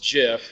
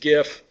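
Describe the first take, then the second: First: The word begins with a soft J sound. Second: The word begins with a hard G sound. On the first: "that's how it came to be pronounced" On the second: "when a G is first, ... it's a hard G. ... I'm going to pronounce it GIF"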